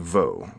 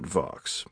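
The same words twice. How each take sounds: First: The name is said with a French pronunciation. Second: The name is said with an English-style pronunciation. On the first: "the French would say Vaux" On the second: "everyone I met pronounced it Vaux"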